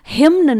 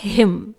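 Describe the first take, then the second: First: The word ends with an N sound. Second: The word ends with an M sound. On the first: The speaker calls it wrong. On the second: The speaker calls it right.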